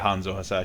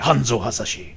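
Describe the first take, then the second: First: The name is said in a plain, ordinary way. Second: The name is said in an exaggerated, dramatic way. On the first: The speaker calls it wrong. "You can't just say" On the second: The speaker calls it right. "You have to say it like that"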